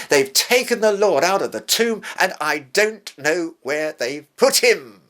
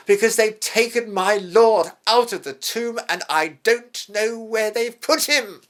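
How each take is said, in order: First: Higher, louder, urgent retelling of the empty tomb; Mary's alarmed report. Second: Much higher, louder, distressed plea; Mary's grieving plea. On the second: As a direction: voice her loss, pleading and pained. Grieving Mary answers the angels. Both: Retold or imitated.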